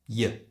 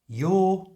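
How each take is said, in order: First: The vowel is reduced to a schwa. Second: The word has its full vowel.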